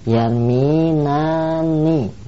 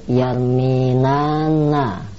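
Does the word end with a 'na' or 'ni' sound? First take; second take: ni; na. First: The final syllable is said with an 'i' vowel. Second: The final syllable is said with an 'a' vowel. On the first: The speaker calls it right. "yang betul yarminanni, nun yang terakhir di kasrah" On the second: The speaker calls it wrong. "di situ yarminanna salah"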